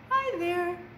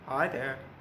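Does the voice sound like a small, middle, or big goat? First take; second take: small; middle. First: It is said in a small goat's voice. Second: It is said in a middle goat's voice.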